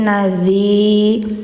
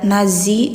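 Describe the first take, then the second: First: The middle consonant is a th-like sound. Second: The middle consonant is a buzzing z sound. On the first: The speaker calls it right. "tapi nadzi. ... lidah ujung di gigi atas" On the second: The speaker calls it wrong. "Jadi nggak ada suara z, nazi nggak"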